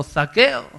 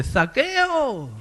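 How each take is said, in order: First: High, loud call of the name. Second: High call of the name. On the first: Jesus calling Zacchaeus, high loud call. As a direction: call out to him. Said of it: "Le llamó". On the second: Jesus calling Zacchaeus by name, high call. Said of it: "le llama por su nombre". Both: Acted.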